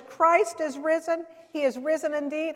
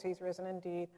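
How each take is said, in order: First: Louder, higher, emphatic proclamation; like you mean it. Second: Low, soft, without conviction; half-hearted response. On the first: Friend told to mean her Easter greeting, emphatic. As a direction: proclaim it with full conviction. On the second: Friend reluctantly answering the Easter greeting by phone, half-hearted. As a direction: mumble it back like you don't mean it. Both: Retold or imitated. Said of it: "Say it like you mean it".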